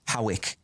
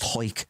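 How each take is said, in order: First: Hawick as two syllables, HOW-ick; spelling pronunciation. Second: Hoik as one syllable, rhyming with "oik"; Hoik, with an "oy" vowel run into the k; local pronunciation. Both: Shown as a demonstration. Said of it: "but it's pronounced Hoik".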